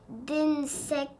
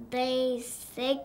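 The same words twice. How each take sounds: First: "d'insectes" as "dinne-sectes"; deliberate misreading. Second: "d'insectes" broken as "din-sec-te", nasal first vowel; syllable by syllable. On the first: Child shows a reading that's no word, "d'insectes" as "dinne-sectes". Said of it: "ça serait pas un mot". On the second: Child explains decoding to a little sister, "d'insectes" in syllables. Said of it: "admettons, fais tes sy". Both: Shown as a demonstration.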